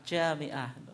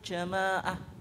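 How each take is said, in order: First: It is said with an 'i' after 'm'. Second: It is said without an 'i' after 'm'. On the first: The speaker calls it right. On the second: The speaker calls it wrong.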